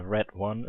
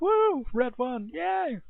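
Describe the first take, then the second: First: Said in the usual way. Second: Much higher, hammed-up fake cheer "Red won!"; mock cheering. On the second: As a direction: sarcastically mimic a thrilled fan. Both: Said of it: "It's like".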